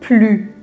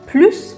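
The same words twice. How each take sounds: First: The final S sound is silent. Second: The final S sound is pronounced. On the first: The speaker calls it right. "میگیم plus" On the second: The speaker calls it wrong. "به جای که بگیم plus"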